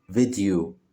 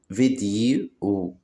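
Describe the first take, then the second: First: Said in the usual way. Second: "فيديو" slowly as vi, di, o; split into syllables. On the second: Shown as a demonstration. Teacher showing children three syllables, "فيديو" split slowly. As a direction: say "فيديو" in three stretched beats. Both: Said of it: "كلمات فيها تلات مقاطع صوتية".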